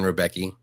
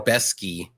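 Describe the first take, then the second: First: The middle sounds like a plain K. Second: The middle sounds like SK. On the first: The speaker calls it wrong. "I was saying Rebecki" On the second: The speaker calls it right. "I think it's Rebeski"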